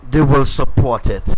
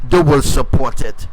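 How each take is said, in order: Both takes have the same delivery.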